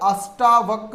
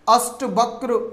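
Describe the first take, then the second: First: The vowel after 'asht' is long. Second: The vowel after 'asht' is short. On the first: The speaker calls it right. "अष्टावक्र होगा" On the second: The speaker calls it wrong. "ने होकर"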